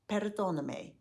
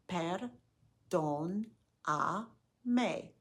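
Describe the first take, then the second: First: The word is said faster. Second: The word is said slowly. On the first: "Now a little bit faster" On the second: "Say it slowly after me"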